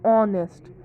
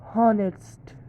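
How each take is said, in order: First: The word starts with a vowel; h is silent. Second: The word starts with an audible h sound. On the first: The speaker calls it right. "o is pronouncing it's like o" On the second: The speaker calls it wrong. "We are not pronouncing it honest"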